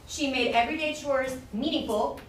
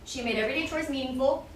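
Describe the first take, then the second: First: There is a clear pause after 'meaningful'. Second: It runs on after 'meaningful' without a pause. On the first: The speaker calls it right. "with the pause" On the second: The speaker calls it wrong. "without the, the pause"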